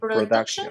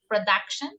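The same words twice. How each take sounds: First: The middle vowel sounds like 'oo'. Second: The middle vowel sounds like 'uh'. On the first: The speaker calls it wrong. "No es" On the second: The speaker calls it right. "como si fuera una A, la U"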